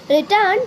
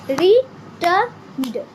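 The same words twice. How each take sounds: First: Said in the usual way. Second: returned drawn out slowly in two beats; slow syllable demo. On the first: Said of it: "teacher reads word list". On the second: Shown as a demonstration. Teacher to pupils, slowly clapping syllables. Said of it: "teacher repeats slowly".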